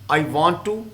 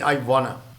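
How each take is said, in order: First: Both words are said fully, as 'want to'. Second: The two words merge into the reduced 'wanna'.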